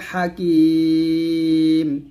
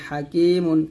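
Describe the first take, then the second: First: The word ends on its final consonant. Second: The word ends with the -un ending. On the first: The reader stops at this word. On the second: The reader continues without stopping.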